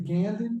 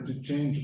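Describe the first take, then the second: First: The c is pronounced with a hard k sound. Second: The c is pronounced with a soft ch sound. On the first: "essa pronúncia que eu estou utilizando é a chamada pronúncia reconstituída" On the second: "se você pegasse a pronúncia eclesiástica, você ia dizer de outra maneira"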